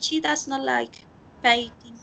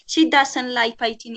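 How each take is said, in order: First: Does not is said as two full words. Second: Does not is contracted into one short word. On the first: "no siempre van a decir she does not" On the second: "Ellos dicen"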